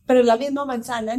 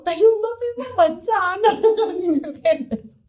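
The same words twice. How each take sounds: First: Quick, a bit higher, reasoning gently; patient mother. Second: Much higher, slow, laughing in disbelief; exasperated laugh. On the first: Mother explaining to her son about the apple, patiently. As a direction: try to talk sense into the kid. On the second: Mother repeating to her son about the apple, laughing and exasperated. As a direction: give up laughing at the absurdity. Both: Retold or imitated.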